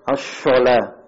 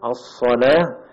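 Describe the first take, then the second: First: The word is said with an sh sound. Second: The word is said with an emphatic s sound. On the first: The speaker calls it wrong. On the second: The speaker calls it right. "kalau antum baca huruf baca huruf shad"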